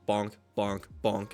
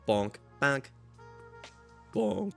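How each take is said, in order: First: Each bonk has the same pitch and speed. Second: Each bonk shifts in pitch and speed. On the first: The sound repeats identically every time. "instead of just" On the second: The sound does not repeat identically. "you'll have one sound that they change the pitch in and the and the speed of it just a little bit"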